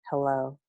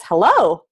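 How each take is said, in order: First: Hello dropped low and much softer; quiet hello. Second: A firm, fuller hello with a falling end; bright hello. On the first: Teacher showing kids a low, soft Hello. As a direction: murmur Hello almost under your breath. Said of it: "versus like this". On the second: Teacher showing kids a clear Hello. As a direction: say Hello out clearly and let it drop. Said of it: "what is it like when I say hello like this". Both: Shown as a demonstration.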